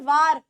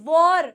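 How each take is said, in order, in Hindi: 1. स्वर एक खुली 'ah' ध्वनि है। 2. स्वर एक गोल होठों वाली 'aw' ध्वनि है। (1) "it is not वार" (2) "it is वॉर"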